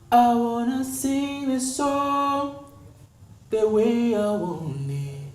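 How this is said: The air is held back, tight.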